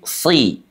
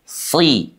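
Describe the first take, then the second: Both takes have the same delivery.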